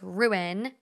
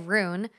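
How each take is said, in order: First: It is said as two syllables, ru-in. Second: It is said like the one-syllable word rune. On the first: The speaker calls it right. "it's ruin" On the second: The speaker calls it wrong. "I say rune"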